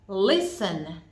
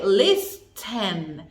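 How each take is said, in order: First: The T sound is silent. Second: The T sound is pronounced. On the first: The speaker calls it right. "It is a silent T" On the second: The speaker calls it wrong. "We don't say listen"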